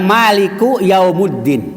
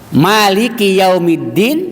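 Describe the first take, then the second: First: The word ends with an 'u' vowel. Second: The word ends with an 'i' vowel. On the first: The speaker calls it wrong. "dibaca Maliku Yaumuddin dengan doma" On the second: The speaker calls it right.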